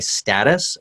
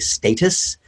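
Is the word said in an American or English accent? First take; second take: American; English. First: It is said in an American accent. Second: It is said in an English accent.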